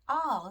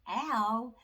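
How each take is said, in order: First: The vowel is a long 'aw' sound. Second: The vowel is a short 'a' sound. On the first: The speaker calls it right. "they team together and say all" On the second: The speaker calls it wrong. "we're not going to be saying al"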